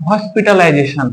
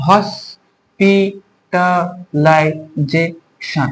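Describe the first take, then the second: First: Said in the usual way. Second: hospitalisation very slow, in six separate syllables. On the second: Shown as a demonstration. Teacher asking students to count syllables, slowly split hospitalisation. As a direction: break hospitalisation into hos, pi, ta, lai, je, shon with gaps. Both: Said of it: "এখানে কটা থাকছে syllable".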